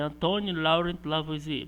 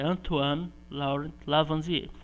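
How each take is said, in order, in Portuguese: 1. O nome é lido como escrito, à moda portuguesa. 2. O nome é dito com pronúncia francesa. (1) "a escrita é" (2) "mas a pronúncia é"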